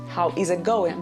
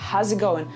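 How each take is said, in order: First: Every word is said fully and separately. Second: The words are contracted into one unit. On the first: The speaker calls it wrong. "they don't say how is it going" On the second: The speaker calls it right. "they say how's it going. So it's kind of like one word"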